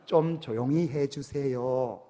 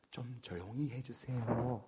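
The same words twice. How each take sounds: First: Put-on slow Seoul-accent request, a touch firmer on 좀; mildly imitated Seoul dialect, drawn out slowly; Seoul speech. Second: Put-on soft, slow, polite Seoul-accent request; a hint of gentle Seoul dialect, said slowly; Seoul speech. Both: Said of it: "서울 말씨".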